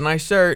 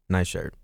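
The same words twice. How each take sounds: First: It is said with a lively, varied pitch. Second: It is said in a flat monotone. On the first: The compliment sounds heartfelt. The speaker calls it right. "Where I would be like" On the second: The compliment sounds dry. The speaker calls it wrong. "his compliments are very one note, monotone"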